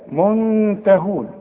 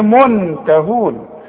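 First: The n is hidden into a nasal sound. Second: The n is fully pronounced with the tongue. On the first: The speaker calls it right. "لا، منته" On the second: The speaker calls it wrong. "اوعى تقول لي منتهون، اوعى تضرب لسانك في حلق بقك"

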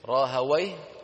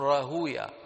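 First: The w has an a-vowel, ending in wayh. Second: The vowel before w is u, ending in ya. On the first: "إما بفتح الواو" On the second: "وإما بضم ما قبل الواو"

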